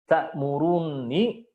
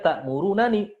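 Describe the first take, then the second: First: The two n sounds merge into one doubled n. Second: The two n sounds are separated by a vowel. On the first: This is the form as written and recited. "sudah bertasydid nunnya" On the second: This is the underlying original form. "aslinya ta'murunani. Ada dua nun"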